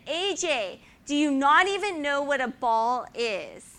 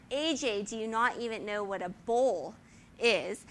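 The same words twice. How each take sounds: First: Loud, high mock Dutch coach yelling; angry coach. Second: Lightly put-on Dutch accent saying "bowl" for ball; how the Dutch coach's "ball" sounded to a seven-year-old, Dutch accent. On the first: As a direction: bellow it like a hot-tempered coach. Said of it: "And he said". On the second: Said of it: "what he sounded like is".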